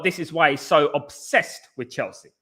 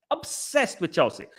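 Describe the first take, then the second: First: Said in the usual way. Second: Slow, scornful repeat of "Obsessed with Chelsea"; mocking echo. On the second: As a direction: drag "Obsessed with Chelsea" out with contempt. Mocking echo of own phrase.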